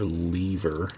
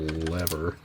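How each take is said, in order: First: "lever" rhyming with "fever"; long-e pronunciation. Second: "lever" rhyming with "never"; short-e pronunciation. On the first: Offering the other way to say it, "lever" as LEE-ver. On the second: Naming a little machine part, "lever" as LEV-er. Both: Shown as a demonstration. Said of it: "Or lever".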